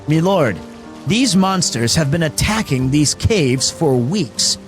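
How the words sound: It is spoken in an American accent. The speaker calls it wrong. "It just doesn't even sound right to use an American accent"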